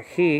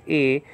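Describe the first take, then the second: First: "he" with an h sound at the start; with breathed h. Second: "e" as a bare vowel, no h; without the h. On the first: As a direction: start "he" on an audible h. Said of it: "so it's not he". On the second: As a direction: start "e" straight on the vowel. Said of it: "with the soft breathing marker". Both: Shown as a demonstration.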